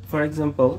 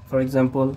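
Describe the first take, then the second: Both takes have the same delivery.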